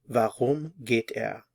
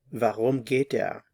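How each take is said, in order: First: Warum geht er said slowly, each word apart; slow it down so learners can follow; slow model. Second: Said in the usual way. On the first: Shown as a demonstration. Teacher repeats the German question slowly for learners. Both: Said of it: "put it all together".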